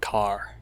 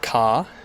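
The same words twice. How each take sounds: First: An R sound is heard at the end. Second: No R sound is heard at the end. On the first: "in American English, it would be a bit more like car" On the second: "in my accent, you can't hear the R at all"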